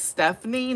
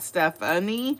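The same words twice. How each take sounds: First: The middle vowel of the name is dropped. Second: The middle vowel of the name is pronounced.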